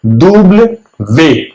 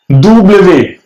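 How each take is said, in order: First: "दुब्ल वे" drawn out for learners; slow repeat. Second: "दुब्ल वे" said as the French W; French letter name. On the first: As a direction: stretch out "दुब्ल वे". ("दुब्ल वे" धीरे-धीरे) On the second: (French W "दुब्ल वे") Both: Shown as a demonstration. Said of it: "W को".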